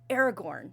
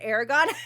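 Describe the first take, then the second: First: The last syllable is said with an r. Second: The last syllable is said without an r. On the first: The speaker calls it right. "Excuse me" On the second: The speaker calls it wrong. "did I said Aragon? I'm sorry"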